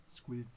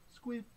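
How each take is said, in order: First: SQUID on a short low note. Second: SQUID on a short high note. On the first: Reader prompts children to say squid, low note. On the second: Reader prompts children to say squid, high note. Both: Pretend.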